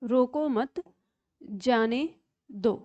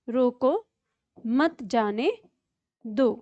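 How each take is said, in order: First: There is a pause after the word mat. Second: There is a pause after the word roko. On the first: Let him go. "अल्प विराम का प्रयोग यहां पे किया है" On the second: Stop him. "विराम चिन्ह का प्रयोग ही यहां पे गलत कर दिया"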